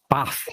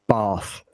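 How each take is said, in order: First: It has a short northern English vowel. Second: It has a long southern English vowel.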